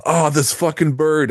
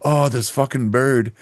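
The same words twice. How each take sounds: First: High, slow startled curse; a goose catches him off guard; coworker's startled outburst. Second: Put-on high, slow curse in an Indian accent. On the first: Retold or imitated. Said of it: "he's like". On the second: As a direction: imitate the coworker's Indian accent. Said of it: "he has, like, an Indian accent".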